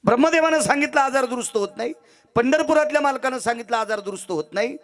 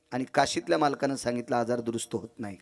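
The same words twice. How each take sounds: First: High, ringing refrain ending on a rise; declamatory preaching. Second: Subdued conclusion. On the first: Preacher announcing each god's verdict, declamatory and high. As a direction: proclaim each verdict like a list. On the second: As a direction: let the refrain sink down quietly. Last verdict drops from declamation. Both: Acted.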